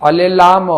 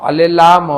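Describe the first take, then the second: The two takes are said the same way.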